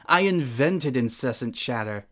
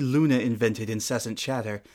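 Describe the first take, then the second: First: I invented incessant chatter with the weight on "I"; stress on I. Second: "Luna" carries the weight, the rest falls away; stress on Luna. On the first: Princess boasting to her rival mid-game, "I" stressed. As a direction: lean hard on "I", the claim is hers. Self-correction, I then Luna. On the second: Princess correcting her own boast to the rival, "Luna" stressed. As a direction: correct herself by hitting "Luna". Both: Acted.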